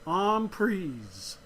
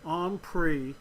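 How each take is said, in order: First: The term is said with a French pronunciation. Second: The term is said with an American pronunciation. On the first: "It's a French word ... and it's pronounced en prise" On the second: "most Americans pronounce it en prise"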